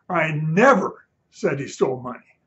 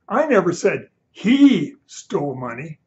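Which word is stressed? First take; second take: never; he. First: The word 'never' is stressed. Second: The word 'he' is stressed.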